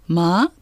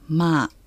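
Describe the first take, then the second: First: The tone rises. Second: The tone is level and flat. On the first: It means dog. "さらに上がる声調でまあといえば犬" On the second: It means come. "まあは平らな声調"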